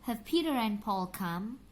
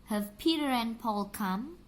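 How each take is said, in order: The two takes are said the same way.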